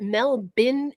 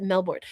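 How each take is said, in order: First: Melbourne said as MEL-bin; short, reduced "bin" at the end of Melbourne; reduced local pronunciation. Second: Melbourne said as MEL-born; full "born" at the end of Melbourne; full spelled pronunciation. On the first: Host asking about the city's name, Melbourne as MEL-bin. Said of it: "but is it Melbourne as a city". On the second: Host asking about the city's name, Melbourne as MEL-born. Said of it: "or is it Melbourne?". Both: Shown as a demonstration.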